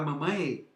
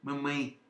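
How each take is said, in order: First: The final E vowel is pronounced fully. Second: The final E vowel is reduced. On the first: The speaker calls it wrong. "alguém fala mamãe? Não" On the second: The speaker calls it right. "você reduz o E"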